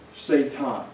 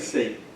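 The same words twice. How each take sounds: First: The name has a Hebrew-style pronunciation. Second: The name has its usual English pronunciation. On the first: It names an accuser, not the devil himself. "Now notice how I used that language" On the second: It names the familiar figure of the devil. "I didn't say Satan"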